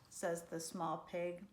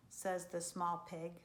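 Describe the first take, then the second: No difference in how they are said.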